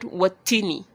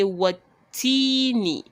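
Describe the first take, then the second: First: The vowel before the final syllable is kept short. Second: The vowel before the final syllable is held long. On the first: The speaker calls it wrong. "and not" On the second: The speaker calls it right. "elongated for just two harakats"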